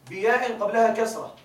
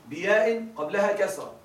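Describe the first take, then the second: The two takes are said the same way.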